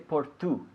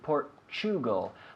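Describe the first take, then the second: First: The T is a plain t sound. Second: The T is a ch sound. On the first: The speaker calls it wrong. "We don't say Portu" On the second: The speaker calls it right. "we say Portugal ... The T U sound, chew"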